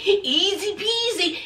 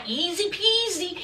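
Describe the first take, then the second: First: Creepy trooper voice. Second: Said in the usual way. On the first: Retold or imitated. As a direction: lightly mimic the creepy trooper's catchphrase. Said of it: "he kept using terms like easy peasy". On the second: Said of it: "he kept using terms like".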